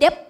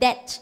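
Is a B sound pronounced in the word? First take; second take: sounded; silent. First: A B sound is pronounced. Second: No B sound is pronounced. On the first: The speaker calls it wrong. "บางคนอ่านว่า" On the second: The speaker calls it right. "ก็ตัดไปเลยเป็น"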